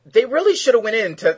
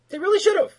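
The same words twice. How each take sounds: First: Said in the usual way. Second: "really" jumps very high and loud; stress on really. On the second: Real, not acted. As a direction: hit "really" hard and high. Emphatic repeat of opinion.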